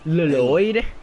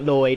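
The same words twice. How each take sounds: First: The name begins with a doubled L sound. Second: The name begins with a single L sound. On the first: The speaker calls it right. "you've got to say both for L's" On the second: The speaker calls it wrong. "It's not"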